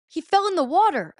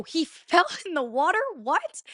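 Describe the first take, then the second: First: High, loud retold news-breaking; alarmed announcement. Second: High-pitched disbelieving question with a laugh; incredulous echo. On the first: Friends tell her about her boyfriend, alarmed. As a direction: imitate a friend blurting out bad news. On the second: Retold or imitated. Girlfriend hears her boyfriend fell in, incredulous. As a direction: re-enact stunned disbelief, pitch jumping up. She echoes the news in disbelief.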